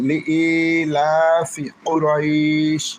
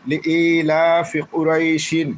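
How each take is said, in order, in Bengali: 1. শেষ শব্দটি 'sh' দিয়ে শেষ হয়, স্বরধ্বনি দীর্ঘ করে। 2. শেষ শব্দটি একটি যোগ করা 'in' ধ্বনি দিয়ে শেষ হয়। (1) "যখন থামবো তখন এই শিনের নিচের জের দুইটা বাদ যাবে" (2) "কুরাই শিন দুইজের শিন"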